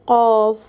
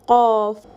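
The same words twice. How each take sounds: The two takes are said the same way.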